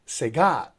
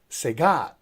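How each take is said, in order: First: The stress is on the second syllable. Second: The same.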